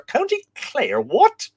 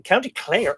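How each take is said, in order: First: High-pitched incredulous echo, louder on the last word; mock disbelief. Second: Said in the usual way. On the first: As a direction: query it in mock astonishment. Mock disbelief at viewer's location.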